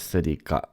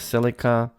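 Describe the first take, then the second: First: It is said the Japanese way. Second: It is said the American way.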